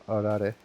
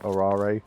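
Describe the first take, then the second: First: The word is said with Japanese-sounding vowels. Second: The word is said with a full British accent. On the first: "pronounce it a little more Japanese sounding" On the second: "as I would have like full British accent"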